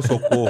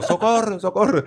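First: Said in the usual way. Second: High Spanish-accented "socorro", cried out twice. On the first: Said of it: "Não é o". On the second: Shown as a demonstration. Showing friends it was the Spaniard's version, high accented cry. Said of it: "é o "socorro".

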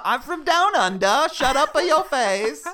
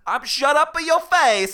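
First: Loud, high mock Australian accent; badly faked Aussie, pushed high and loud; fake Australian accent. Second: Loud, high mock Italian accent; Australian attempt slipping into cartoon Italian; fake Italian accent. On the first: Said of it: "what's Australian?". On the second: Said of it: "that was a perfect Italian".

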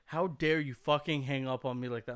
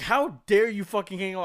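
First: Said in the usual way. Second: High, loud mock outrage yelled down the phone; louder, higher imitation of an angry stranger; furious caller. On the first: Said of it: "just like". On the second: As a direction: yell it like an enraged caller who was hung up on. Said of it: "whoever's on the phone is pissed".

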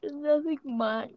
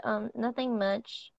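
First: Words stretched slow through a yawn. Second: Said in the usual way. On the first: Real, not acted. Answering what's going on, through a real yawn. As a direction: say it mid-yawn. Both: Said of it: "I'm sorry, I yawned".

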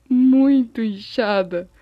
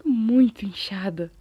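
First: "muito" drawn out long and loud; huge stress on muito. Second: "muito" leaned on for emphasis; stress on muito. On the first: Vlogger exaggerating the swollen leg, "muito" loud and stretched. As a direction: stretch "muito" slowly at full voice. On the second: Vlogger describing the swollen leg, "muito" moderately stressed. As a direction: lean on "muito", at a moderate volume. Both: Real, not acted.

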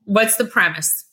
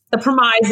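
First: Said in the usual way. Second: Put-on premise said as pre-mize, British Jersey accent; The premise, with a British Jersey accent saying pre-mize. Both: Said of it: "as Lexi would say".

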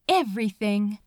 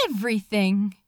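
The two takes are said the same way.

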